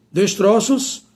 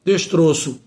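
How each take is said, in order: First: "destroços" with open ó, rising. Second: "Destroço" with closed ô, falling. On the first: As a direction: say "destroços" as des-TRÓ-ços. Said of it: "passa para o timbre aberto". ("destroços" com ó aberto) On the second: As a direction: say "Destroço" as des-TRÔ-ço. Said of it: "o O permanece com o timbre fechado". ("Destroço" com ô fechado) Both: Shown as a demonstration.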